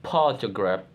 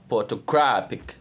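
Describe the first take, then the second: First: "photograph" with stress on PHO, the first syllable; base-word stress. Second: "photographic" with stress on GRA; shifted stress. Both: Shown as a demonstration. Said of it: "Stress change".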